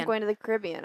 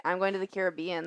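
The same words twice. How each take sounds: First: Caribbean as kuh-RIB-ee-un; stress on second syllable. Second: Caribbean as care-uh-BEE-un; stress on third syllable. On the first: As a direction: put the weight on RIB in Caribbean. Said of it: "I don't say". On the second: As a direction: put the weight on BEE in Caribbean. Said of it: "That sounds weird". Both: Shown as a demonstration.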